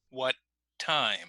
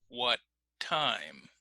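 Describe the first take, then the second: The two takes are said the same way.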